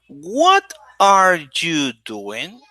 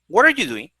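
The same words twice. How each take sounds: First: Each word is said separately and slowly. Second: The words run together quickly with a weak vowel. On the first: The speaker calls it wrong. "they read it word by word" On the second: The speaker calls it right. "We say it fast"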